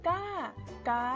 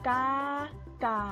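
The two takes are said the same way.

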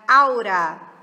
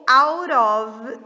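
First: The words merge into one reduced word. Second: Both words are said fully and separately. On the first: "vira aura" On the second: "E o out of vira aura"

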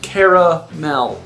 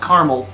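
First: The word is said with three syllables. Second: The word is said with two syllables. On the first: "I say caramel" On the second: "Not caramel, you're missing a letter"

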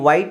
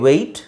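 First: The vowel sounds like the one in 'eye'. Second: The vowel sounds like the one in 'say'. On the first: The speaker calls it wrong. "ಇಲ್ಲಿ ನೀವು ವೈಟ್ ಅಂತ ಹೇಳೋದು, ... ಅದನ್ನು avoid ಮಾಡಬೇಕು" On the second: The speaker calls it right. "But ಇಲ್ಲಿ ವೆಯ್ಟ್"

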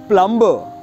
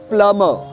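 First: The B sound is pronounced. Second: The B sound is silent. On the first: The speaker calls it wrong. "This word is not plumber" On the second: The speaker calls it right. "B always becomes silent"

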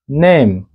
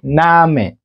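First: The word is said with an English pronunciation. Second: The word is said with a German pronunciation. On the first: "But in English is name" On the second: "But in German, I had that name is called name... They say name"

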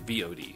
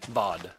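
First: It is spelled out letter by letter. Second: It is said as a single word. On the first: The speaker calls it right. "it's actually more efficient to just say VOD" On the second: The speaker calls it wrong. "VOD just doesn't sound right to me"

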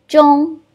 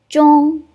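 The two takes are said the same way.

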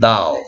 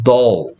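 First: The vowel is an open, unrounded 'ah'. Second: The vowel is a short rounded 'o'. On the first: "미국 애들은" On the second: "영국 애들은"

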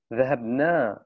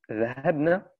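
First: The final vowel is long. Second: The final vowel is short. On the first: We went. "wenn wir das verlängern würden, dann heißt das, wir sind gegangen" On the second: A group of women went. "zahabna ist Hunda, also sie weiblich"

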